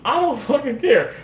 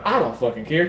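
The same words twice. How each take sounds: First: Emphatic. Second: Said in the usual way. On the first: Real, not acted. Repeats it, much higher.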